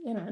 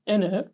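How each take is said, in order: First: Said in the usual way. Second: "innit" raised, in a copied fake London accent; mock his put-on London accent on "innit"; overdone London-accent "innit"; mimicked fake accent on INNIT. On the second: Shown as a demonstration. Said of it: "That's how you're saying it".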